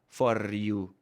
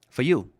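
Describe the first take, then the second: First: The R in 'for' is strongly pronounced. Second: The R in 'for' is reduced to a schwa. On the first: The speaker calls it wrong. "with a strong R" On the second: The speaker calls it right. "Get rid of that R"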